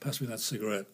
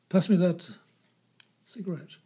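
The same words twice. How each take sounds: First: It is said plainly, like ordinary speech. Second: It is said in an affected, actorly manner.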